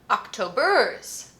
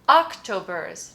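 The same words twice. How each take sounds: First: The stress is on the last syllable. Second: The stress is on the first syllable. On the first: "Let's check the last one just in case"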